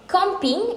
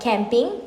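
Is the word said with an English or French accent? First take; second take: French; English. First: It is said with a French accent. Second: It is said with an English accent. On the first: "the French do have a special way of pronouncing it due to their accent" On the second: "instead of camping"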